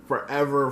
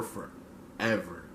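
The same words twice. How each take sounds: First: Said in the usual way. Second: Much softer, lower, slow fade-out; fading echo whisper. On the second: Acted. Echoing the queen's lyric to viewers, fading to nothing. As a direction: let the last forever die away like a song ending.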